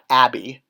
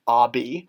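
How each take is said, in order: First: The first vowel is a short 'a' sound. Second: The first vowel is an open 'ah' sound. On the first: The speaker calls it wrong. "not Abby" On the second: The speaker calls it right. "ah, like father"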